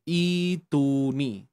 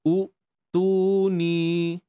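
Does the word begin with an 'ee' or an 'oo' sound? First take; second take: ee; oo. First: The word begins with an 'ee' sound. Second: The word begins with an 'oo' sound. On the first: The speaker calls it right. "cara bacaan yang sebenar adalah ituni" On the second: The speaker calls it wrong. "ni contoh kesalahan eh"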